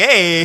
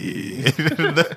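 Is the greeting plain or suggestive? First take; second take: plain; suggestive. First: It is said in a plain, ordinary way. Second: It is said in a pleased, suggestive way.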